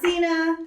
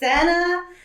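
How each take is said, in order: First: It sounds like the wrestler's name Cena. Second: The first syllable sounds like the start of 'senator'. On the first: The speaker calls it wrong. "not Cena ... because of the wrestler John Cena" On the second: The speaker calls it right. "it's Senna, like senator"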